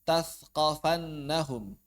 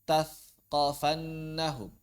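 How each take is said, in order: Both takes have the same delivery.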